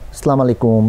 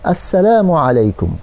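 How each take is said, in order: First: The greeting is said in a clipped, altered way. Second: The greeting is said fully, with every sound clear. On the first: It may wish death instead of peace. The speaker calls it wrong. "ভুল উচ্চারণে" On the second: It wishes peace upon the person. The speaker calls it right. "শুদ্ধ উচ্চারণ"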